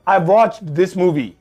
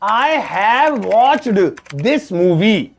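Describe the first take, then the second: First: The word have is shortened onto I. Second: The word have is said in full.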